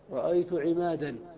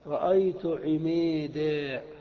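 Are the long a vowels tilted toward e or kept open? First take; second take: open; tilted. First: The long a vowels are kept open and plain. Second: The long a vowels are tilted toward e. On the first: "يريدون" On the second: "قول العرب الذي رواه سيبويه عن العرب"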